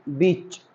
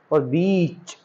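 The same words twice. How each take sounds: First: बीच with a short clipped ee. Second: बीच with a long drawn ee; long stretched ee. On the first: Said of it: "sound का बड़ा, बहुत बड़ा फर्क होता है बोलने में". (बीच छोटी ई के साथ) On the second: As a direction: pull out the ee in बीच. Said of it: "थोड़ा सा जब साउंड ज्यादा खींचने की आवाज करी तो वो बीच". (बीच लंबी खींची हुई ई के साथ) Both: Shown as a demonstration.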